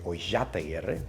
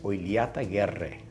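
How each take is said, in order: First: The double L is said as sh. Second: A rolled R and a ly sound. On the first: This is the Buenos Aires form. "If you're from Buenos Aires, you would say Oillataguerre, because the two L's would give us a sha sound" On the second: This is the proper form. "if you were to say it properly, it's Oiliataguerre. So you got to roll that R, and the two L's are, is a lia sound"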